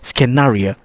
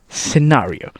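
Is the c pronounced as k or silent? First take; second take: k; silent. First: The c is said as a k. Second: The c is silent. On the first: The speaker calls it wrong. "people also think C can be read as letter K" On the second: The speaker calls it right. "the C becomes silent"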